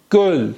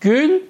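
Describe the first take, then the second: First: گل with a more open, rounded ö; Turkish göl. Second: گل high, with a tight ü; Turkish gül. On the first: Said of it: "این گله". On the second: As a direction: say گل as "gül", voice lifted. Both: Shown as a demonstration.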